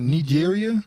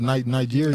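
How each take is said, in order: First: Nigeria opened with "nee"; pronounced nee-JEER-ia. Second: Nigeria opened with a long "eye"; pronounced nigh-JEER-ia. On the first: Host asking how it is said, Nigeria starting with "nee". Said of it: "Or is it Ni-, Nigeria". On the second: Host offering the other option, Nigeria starting with "nigh". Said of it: "So is it Nigeria? Or is it". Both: Shown as a demonstration.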